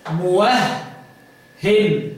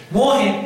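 First: موهن drawn out very slowly, muwahhen, with a long doubled h; doubled muwahhin. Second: موهن with a light, single h and no doubling, read as muhin. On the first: Teacher demonstrating the stressed reading to the student, slow muwahhen. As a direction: stretch موهن and lean on the doubled h. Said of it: "بالتشديد أو بالتثقيل". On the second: Teacher showing the student the light reading, موهن said as muhin. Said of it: "بالتخفيف". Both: Shown as a demonstration.

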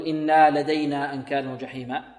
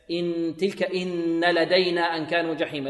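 First: إنا with a long alif after the nun; wrong added alif. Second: إن said short with a doubled nun; correct short إن. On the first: Teacher warning students against the wrong reading: إنا stretched. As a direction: demonstrate the mistake إنا lengthened. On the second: Teacher to students, giving the right reading: short إن. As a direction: keep إن short and nasal. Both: Shown as a demonstration. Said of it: "لا، لا نقول".

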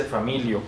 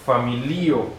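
First: Familio as fa-MI-lio; wrong Spanish stress. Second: Familio as fa-mi-LI-o, slowly; stress on second-last syllable. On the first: Teacher shows what not to say, familio as fa-MI-lio. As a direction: stress the MI in familio, quick ending. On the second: Teacher gives the Esperanto word, familio stressed fa-mi-LI-o. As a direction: draw out the LI in familio. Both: Shown as a demonstration. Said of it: "no se dice familio".

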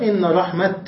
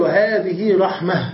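First: "رحمة" stopped on a sounded t, "rahmat"; pausal t ending. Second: "رحمة" stopped on a breathed h, "rahmah"; pausal h ending. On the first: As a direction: end "رحمة" on a hard unvowelled t. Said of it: "ووقف بتاء". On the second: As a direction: slowly end "رحمة" on h, no t. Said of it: "وتقف عليها بالهاء". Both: Shown as a demonstration.

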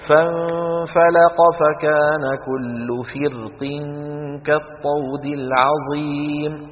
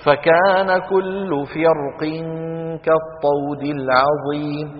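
First: Slow chanted recitation, فرق with a thin, light ر. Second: Slow chanted recitation, فرق with a thick, heavy ر. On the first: Teacher shows students the first option, light-ra recitation. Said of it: "فترقق". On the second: Teacher shows students the second option, heavy-ra recitation. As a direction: recite drawn out, make ر in فرق heavy and full. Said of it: "فتفخم". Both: Shown as a demonstration.

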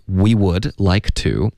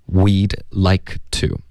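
First: Said in the usual way. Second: "we'd like to" slowed, would shrunk to a d; contracted form. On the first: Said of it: "所以这里". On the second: Shown as a demonstration. Teacher shows the spoken form, slow contraction. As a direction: say "we'd like to" slowly as contracted words. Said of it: "它发的是".

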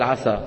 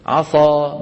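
First: عسى with a plain light s. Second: عصى with an emphatic s; heavy s. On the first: Teacher gives the correct light s in عسى. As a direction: say عسى with a clear thin s. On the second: Teacher shows the wrong heavy s in عصى. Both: Shown as a demonstration. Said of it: "بدل".

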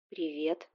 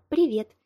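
First: Quiet, puzzled greeting. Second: A bright, sweet little chirp; sweet tender chirp. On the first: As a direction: sound baffled and unsure. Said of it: "недоумённо отозвался Витя". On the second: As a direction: chirp it in your most tender voice. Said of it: "прощебетала ... своим самым нежным и ласковым голосом". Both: Acted.

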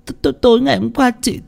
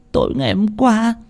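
First: Much higher, fast, stuttering on t- through sobs; sob-stammered restart. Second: Much higher, sobbing start of the story. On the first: Tân restarting her account to Ông Phú, sob-stammering. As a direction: sobs break "tối" into "t-, t-". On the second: Tân telling Ông Phú what happened, sobbing. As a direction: begin through hiccuping sobs. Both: A narrator's reading. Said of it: "khóc nấc lên".

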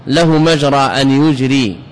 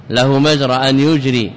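Both takes have the same delivery.

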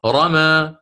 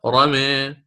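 First: Slow رمى with an open final aa; open fath reading. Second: رمي with the final a tilted to "eh"; taqlil reading. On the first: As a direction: draw out رمى, ending on a clear "aa". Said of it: "والفتح مقدم دائمًا". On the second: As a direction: draw out رمي as "ramee", between a and i. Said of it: "فهذه فيها الخلف". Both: Shown as a demonstration.

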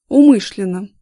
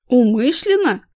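First: A flat, much louder "Умышленно"; firm answer. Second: "Умышленно?" repeated louder in disbelief; shocked echo. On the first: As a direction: state it hard, no doubt. Vlad answers firmly. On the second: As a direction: throw the word back, stunned. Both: A narrator's reading.

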